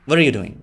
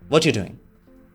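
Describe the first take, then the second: First: 'What are' blends into a sound like 'water'. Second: 'What you' blends into a sound like 'watcher'. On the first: "वॉटर बन जाता है" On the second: "वॉचर बन जाता है"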